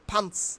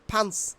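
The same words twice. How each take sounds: No difference in how they are said.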